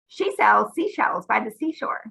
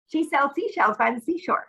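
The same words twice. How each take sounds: First: The sentence is said at a slower pace. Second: The sentence is said at a faster pace.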